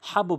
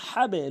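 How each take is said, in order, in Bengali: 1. শেষ ব্যঞ্জনের ধাক্কায় "o"-র মতো স্বর আসে। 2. শেষ ব্যঞ্জনের ধাক্কায় "e"-র মতো স্বর আসে। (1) "হাবো বলা যাবে না" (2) "হাবে লুন"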